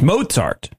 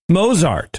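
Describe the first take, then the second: First: The middle consonant is a ts sound. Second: The middle consonant is a plain z sound. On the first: The speaker calls it right. "There's like a T, like the Z" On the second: The speaker calls it wrong.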